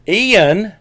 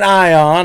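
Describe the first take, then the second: First: The name begins with an 'ee' sound. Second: The name begins with an 'eye' sound. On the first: The speaker calls it right. "But the actual pronunciation is eon" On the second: The speaker calls it wrong. "I was saying ion"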